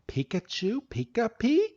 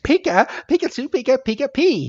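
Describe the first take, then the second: First: High, soft questioning creature talk; Coco. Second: Very high, chirpy creature voice; Pikachu. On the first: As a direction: echo creature chatter as a tentative question. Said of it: "freaking Coco is just looking at him". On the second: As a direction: squeak out cheerful little creature chatter. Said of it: "Pikachu is like". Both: Retold or imitated.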